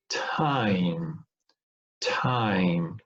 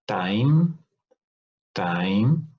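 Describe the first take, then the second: First: TIME with a strong puff of air after the T; aspirated T. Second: TIME with no puff of air after the T; unaspirated T. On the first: Teacher showing students the aspirated version, TIME with aspiration. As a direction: breathe out hard on the T of TIME. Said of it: "which is aspirated". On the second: Teacher showing students the unaspirated version, TIME without aspiration. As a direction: say TIME with a tight T, almost like "dime". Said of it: "which is not aspirated". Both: Shown as a demonstration.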